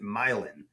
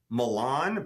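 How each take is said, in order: First: It is pronounced the local New Orleans way. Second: It is pronounced the way the spelling suggests. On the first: This is how locals say it. "but we pronounce it Milan" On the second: This is how the spelling suggests it is said. "the street name is spelled like Milan"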